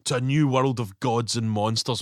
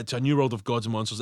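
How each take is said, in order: First: Slow, lower sinister villain line; evil guy quote. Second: Evil guy quote. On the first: Quoting Pretorius's toast, slow and sinister. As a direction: savour it like a mad scientist. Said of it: "that's a great phrase". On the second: Repeating Pretorius's toast, low and sinister. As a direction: murmur it like a mad scientist. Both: Retold or imitated.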